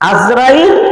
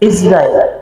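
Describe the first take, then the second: First: The name begins with an 'a' vowel. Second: The name begins with an 'i' vowel. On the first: The speaker calls it wrong. "আজরাইল এটা অশুদ্ধ শব্দ" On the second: The speaker calls it right. "ইসরাইল বলতে আইনের নিচে জের দিয়ে ইসরাইল। এটা হলো শুদ্ধ শব্দ।"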